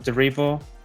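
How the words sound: The name is pronounced with English vowels.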